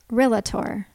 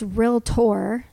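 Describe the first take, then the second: First: The word is said with three syllables. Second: The word is said with two syllables. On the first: The speaker calls it wrong. "not Realtor" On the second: The speaker calls it right. "it's Realtor"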